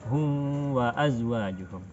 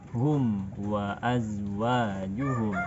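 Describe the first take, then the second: First: The m is hidden without full lip closure. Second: The lips close fully on the m sound. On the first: The speaker calls it wrong. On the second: The speaker calls it right. "tapi kita baca"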